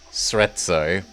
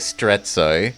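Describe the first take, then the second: First: The name starts with a plain s sound. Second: The name starts with an st sound. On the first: The speaker calls it right. "There's no T at the start" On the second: The speaker calls it wrong. "but I always say Strezzo"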